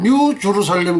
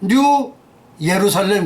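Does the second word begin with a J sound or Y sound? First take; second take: J sound; Y sound. First: The second word begins with a J sound. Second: The second word begins with a Y sound. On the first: This is how it is said in English. "영어로 발음하게 되면" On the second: "메시아닉 주들은"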